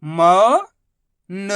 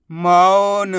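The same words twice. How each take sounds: First: मौन split into मौ, long pause, न; sound by sound. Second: मौन as one whole word; sounds joined. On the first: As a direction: stretch मौ upward, pause, then न alone. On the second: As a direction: blend मौ and न without a pause. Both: Shown as a demonstration. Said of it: "उच्चारण करके आपस में लाके".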